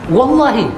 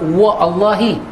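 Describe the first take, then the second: First: 'Wa' runs straight into 'llahi' without a break. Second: A glottal stop separates 'wa' from 'Allahi'. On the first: The speaker calls it right. "Waw tu masuk terus ke dalam ke dalam lam" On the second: The speaker calls it wrong. "Kita tak kata wa Allahi"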